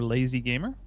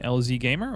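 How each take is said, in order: First: The first part is spoken as one word, lazy. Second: The first part is spoken as two separate letters. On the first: The speaker calls it wrong. "then you botched it" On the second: The speaker calls it right. "You had it right first"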